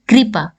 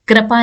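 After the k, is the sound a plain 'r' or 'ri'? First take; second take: ri; plain r. First: The k is followed by a ri sound. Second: The k is followed by a plain r sound. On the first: The speaker calls it right. "री" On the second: The speaker calls it wrong. "नहीं"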